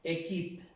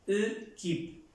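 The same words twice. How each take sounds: First: "equipe" as "é-kip", clear first E; "equipe" starting on "é", final E silent; acute-accent E. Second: "E, keep" as "euh-kip", higher and split in two; "euh" for the "E", then "keep"; E without accent. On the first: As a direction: model "equipe" correctly with a Spanish-like E first. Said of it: "Pero tiene el acento agudo". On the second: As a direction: show "equipe" wrongly, starting on a schwa. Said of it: "Si no tuviera el acento agudo". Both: Shown as a demonstration.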